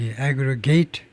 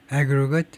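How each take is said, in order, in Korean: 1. 동사 소리 그대로 발음합니다. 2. 명사 소리 그대로 발음합니다. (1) "aggregate이라고 발음하면 이제 합산하다가 되고" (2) "aggregate 명사면 이제 뭐 저 그 합계가 되는데"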